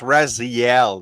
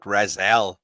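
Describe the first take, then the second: First: The name is said as Raziel. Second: The name is said as Razel. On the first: The speaker calls it right. "it's Raziel" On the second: The speaker calls it wrong. "not Razel"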